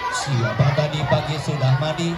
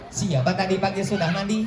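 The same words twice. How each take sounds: First: The question is said at a slower pace. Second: The question is said at a faster pace.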